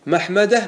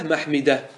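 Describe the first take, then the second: First: محمدة said "mahmada", with an a, pitched high; fatha form. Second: محمدة said "mahmida", with an i, falling; kasra form. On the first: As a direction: say محمدة with fatha on the second mim. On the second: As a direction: say محمدة with kasra on the second mim. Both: Shown as a demonstration. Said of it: "ما ورد بالوجهين".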